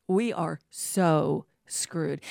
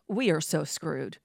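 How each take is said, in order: First: "We are so screwed" word by word, very slowly; slow emphatic repeat. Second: Said in the usual way. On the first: Real, not acted. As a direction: draw out "so", pause before "screwed".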